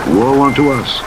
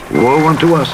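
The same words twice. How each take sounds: The two takes are said the same way.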